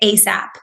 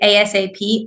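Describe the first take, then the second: First: It is said as a single word. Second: Each letter is said separately.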